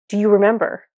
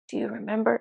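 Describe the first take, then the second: First: It is asked in a forceful, demanding way. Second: It is asked in a gentle, nice way.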